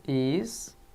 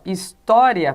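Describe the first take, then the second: First: "his-to-ria" em três sílabas com pausas longas, mais baixo; separação silábica. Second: Said in the usual way. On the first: Shown as a demonstration. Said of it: "na penúltima sílaba". ("his-to-ria" dito sílaba por sílaba, devagar) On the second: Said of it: "história é um exemplo de paroxítona".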